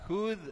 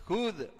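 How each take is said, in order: Both takes have the same delivery.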